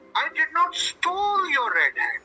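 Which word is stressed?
stole. The stress is on "stole".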